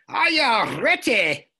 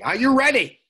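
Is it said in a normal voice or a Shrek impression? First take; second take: Shrek impression; normal voice. First: It is said in a Shrek impression voice. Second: It is said in his normal voice.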